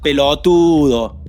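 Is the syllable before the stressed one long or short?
short. The syllable before the stress is short. The speaker calls it wrong. "no se dice pelotudo"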